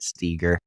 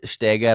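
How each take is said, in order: First: The name is said with an American pronunciation. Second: The name is said with a German pronunciation. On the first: This is the form the family adopted over time. "we've started just calling it Steger" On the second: This is the original form of the family name. "Steiger is probably closer to correct"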